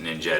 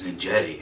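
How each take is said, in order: First: The name ends on a 't' sound. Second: The name ends with an added 'ee' vowel. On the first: "I would have pronounced it Ninjet" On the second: "no, it's Ninjetti"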